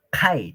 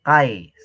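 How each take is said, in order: First: "kai" with a breathy, blown k, like khai; "kai" said as khai, with the k aspirated. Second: "kai" said plain, without the puff of air; the unaspirated "kai" the teacher rejects; "kai" with a plain k, no breath after it; wrong kai. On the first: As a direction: blow air out on the k of "kai". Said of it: "pronunciar como soplano". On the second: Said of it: "kai, no es". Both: Shown as a demonstration.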